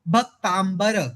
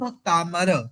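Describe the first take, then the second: First: The word has a b sound after m. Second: The word has an m with no b sound. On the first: The speaker calls it wrong. "अब वो ब कहाँ से आ गया पता नहीं" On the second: The speaker calls it right. "भक्त जमा अमर इज इक्वल टू भक्तामर"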